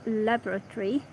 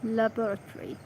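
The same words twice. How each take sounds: First: "laboratory" starting with "lab", as lab-ruh-tory; LAB-ruh-tory pronunciation. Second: "Laboratory" with a weak first syllable and a full "bor"; luh-BOR-uh-tory pronunciation. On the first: Reader trying out a word, "laboratory" as LAB-ruh-tory. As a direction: say "laboratory" with stress up front on LAB. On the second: Reader settling on a word, "Laboratory" as luh-BOR-uh-tory. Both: Shown as a demonstration. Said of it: "laboratory or laboratory?".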